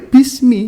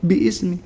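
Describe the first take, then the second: First: The words run together without the initial vowel. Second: The second word starts with its own vowel. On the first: The speaker calls it right. "ya bismi" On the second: The speaker calls it wrong. "nggak ter bi ismi"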